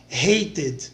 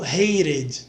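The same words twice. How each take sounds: First: The middle consonant is a hard t. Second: The middle consonant is a soft r-like flap.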